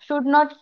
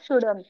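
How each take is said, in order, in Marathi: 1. दोन वेगळे शब्द पूर्ण म्हटले जातात. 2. शब्द एकत्र जोडून एक आकुंचित शब्द म्हटला जातो. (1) "शुड नॉट असेल तर" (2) "कॉन्ट्रॅक्टेड फॉर्म"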